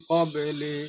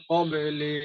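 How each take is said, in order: Both takes have the same delivery.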